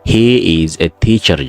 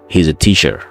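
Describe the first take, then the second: First: It is said slowly with each word full. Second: It is said at a natural, quick pace.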